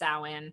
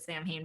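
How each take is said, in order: First: It is pronounced unlike the way it looks. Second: It is pronounced the way it looks written. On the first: The speaker calls it right. "it's really pronounced" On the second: The speaker calls it wrong. "a lot of people pronounce it"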